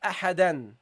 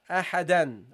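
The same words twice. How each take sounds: First: The word ends with an n sound. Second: The same.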